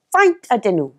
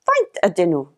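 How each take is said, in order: First: Faint ydyn nhw with v-like f and falling tune; Welsh question. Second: Faint ydyn nhw repeated lower, the f almost dropped; Welsh repeated, lower. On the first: Teacher models the plural question for learners. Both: Shown as a demonstration. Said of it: "How much are they?".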